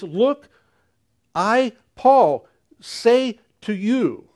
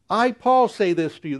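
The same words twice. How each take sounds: First: Paul's voice, higher and slow, weighing each word; emphatic Paul. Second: Said in the usual way. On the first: Retold or imitated. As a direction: announce yourself with apostolic weight, slowly. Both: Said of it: "an emphatic speech for Paul".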